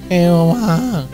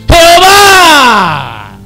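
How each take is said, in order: First: It is said flatly, without excitement. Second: It is exclaimed with strong excitement.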